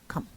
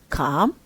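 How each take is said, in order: First: The pitch stays level on the word. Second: The pitch rises on the word. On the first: "the level one, no rise, no fall"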